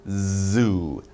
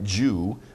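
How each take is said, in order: First: The word begins with a buzzing Z sound. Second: The word begins with a J sound. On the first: The speaker calls it right. "You get some vibration" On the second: The speaker calls it wrong.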